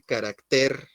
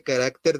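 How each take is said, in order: First: "carácter" stressed on the final TER; stress on last syllable. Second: Said in the usual way. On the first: Shown as a demonstration. («carácter» con acento en la última sílaba, TER) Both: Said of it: "acentuar estas palabras en la última sílaba".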